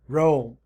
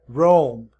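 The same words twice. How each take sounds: First: It begins with a rounded, W-like R. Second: It begins with a rounded, W-like R.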